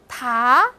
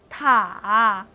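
First: The pitch rises from middle to high. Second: The pitch dips low then rises.

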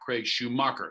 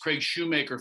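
First: The surname ends with a 'mocker' sound. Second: The surname ends with a 'maker' sound. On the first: The speaker calls it wrong. "not Craig Schumacher" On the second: The speaker calls it right. "it's Craig Shoemaker"

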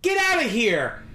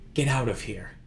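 First: It is said in a full, forceful voice. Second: It is said quietly, under the breath, defeated.

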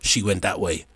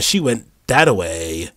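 First: It is said in a plain, normal voice. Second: It is said in a put-on high-pitched voice. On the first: The words alone carry the joke. The speaker calls it right. "just saying the words" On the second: The funny voice carries the joke. The speaker calls it wrong. "do an inflection on your voice"

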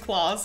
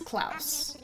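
First: The vowel does not sound like blouse. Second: The vowel sounds like the one in blouse. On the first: The speaker calls it wrong. "It's not pronounced Claus" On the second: The speaker calls it right. "Like blouse"

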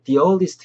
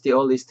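First: The word 'the' is said with a long 'ee'. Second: The word 'the' is said with a short 'uh'. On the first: The speaker calls it right. "뒤에 이제 모음이기 때문에 the earliest 이렇게 하셔야 되거든요" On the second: The speaker calls it wrong. "the earliest가 아니고"

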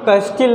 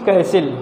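First: The t sound is pronounced in the middle. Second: The t sound is silent in the middle. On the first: The speaker calls it wrong. "उसको हम लोग कैस्टिल नहीं पढ़ेंगे" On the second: The speaker calls it right. "It's कैसिल"

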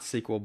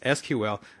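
First: It is said as one word, sequel. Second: It is spelled out letter by letter. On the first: The speaker calls it wrong. "not SQL" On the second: The speaker calls it right. "the correct way to pronounce it is SQL"

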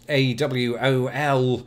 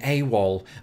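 First: Each letter is spoken separately, one by one. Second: It is pronounced as a single two-syllable word. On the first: "the US military would have sounded out every single letter" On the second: "they recognized they could save time during the search for Charlie and just say AWOL"

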